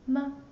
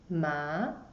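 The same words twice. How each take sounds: First: The syllable is short and light, unstressed. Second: The pitch rises from middle to high. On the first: "the light tone" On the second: "The second tone, ma, it goes up"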